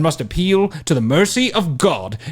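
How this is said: It is spoken in a British accent. "I like the British accent"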